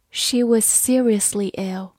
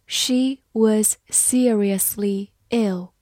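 First: Said in the usual way. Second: Slow, careful word-by-word reading; deliberate model reading. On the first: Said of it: "慢慢来读". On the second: Shown as a demonstration. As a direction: read it slowly for learners. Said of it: "好，慢慢来读".

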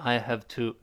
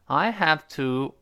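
First: "I have to" reduced to "hafta"; weak form. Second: Slow, clear "I have to" with every word full; full form. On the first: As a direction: say "I have to" lightly and run together. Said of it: "变成". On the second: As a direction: say "I have to" deliberately, unreduced. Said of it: "弱化变成". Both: Shown as a demonstration.

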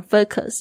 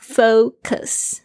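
First: "focus" with a wrong first vowel, "fuh-kus"; old mispronunciation. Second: "Focus" as "FOH-kus", long o then light schwa; correct vowels. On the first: Teacher owning up to her old mistake, "focus" as "fuh-kus". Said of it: "我以前是念focus， 是错的". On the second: Teacher giving listeners the right form, "Focus" as "FOH-kus". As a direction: say "Focus" with a full "oh" and a relaxed "kus". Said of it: "是错的". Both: Shown as a demonstration.

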